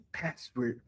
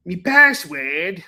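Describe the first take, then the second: First: Said in the usual way. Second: Slow, drawn-out Australian "Me password?" asked with a rise; mock Australian accent. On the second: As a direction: stretch "Me password?" into a puzzled Aussie question. Echoing the Australian bit.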